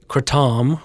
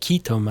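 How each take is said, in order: First: It is said with the American pronunciation. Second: It is said with the Malaysian pronunciation. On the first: "has become the sort of U S terminology" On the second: "as it's pronounced in Malaysia"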